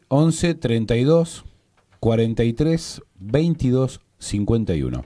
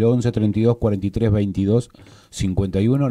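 First: The number is read more slowly. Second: The number is read quickly. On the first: The speaker calls it right. "Lo voy a repetir más despacio" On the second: The speaker calls it wrong. "lo dije muy rápido"

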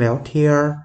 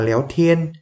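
First: The word ends with a curled-tongue r sound. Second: The word ends without a curled-tongue r sound. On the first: "còn đây là léo thiên, uốn lưỡi lên vậy thôi" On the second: "Ở đây đọc là léo thiên"

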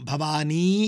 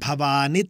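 First: The final vowel is long. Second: The final vowel is short. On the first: It names someone rather than calling to them. The speaker calls it wrong. "భవానీ కాదు" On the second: It calls out directly to the goddess. The speaker calls it right. "హ్రస్వమే భవాని"

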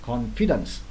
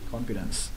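First: The stress is on the second syllable. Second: The stress is on the first syllable. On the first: The speaker calls it wrong. "có nhiều em đó là confidence sai nha" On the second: The speaker calls it right. "nhấn bên đầu"

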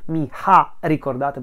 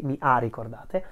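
First: The h in 'ha' is sounded aloud. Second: The h in 'ha' is silent. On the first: The speaker calls it wrong. "We don't say mi ha ricordate" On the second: The speaker calls it right. "We Italians don't pronounce the letter H"

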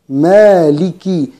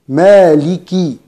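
The two takes are said the same way.

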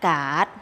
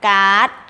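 First: The syllable is said with a rising tone. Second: The syllable is said with a high tone. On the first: "ไม้จัตวา" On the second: "ไม้ตรี"

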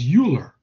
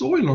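First: The name is said the American way. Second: The name is said the German way. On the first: The speaker calls it wrong. "Stubbornly pronounce it as Euler" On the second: The speaker calls it right. "They can pronounce Euler"

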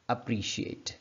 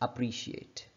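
No difference in how they are said.

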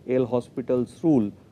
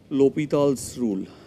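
First: The name is said the Indian English way. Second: The name is said the French way. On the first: "in India we will call it" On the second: "if you go by the French pronunciation"

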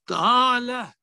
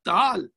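First: The word ends with a final vowel sound. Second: The final vowel is dropped; it ends on consonant.

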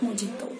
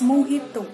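First: The middle consonant is a 'j' sound. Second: The middle consonant is an 'h' sound. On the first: The speaker calls it wrong. "It's not Mojito" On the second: The speaker calls it right. "it's Mojito"

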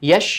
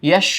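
No difference in how they are said.

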